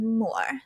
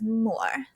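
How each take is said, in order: First: The name is said the posh English way. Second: The name is said the posh English way.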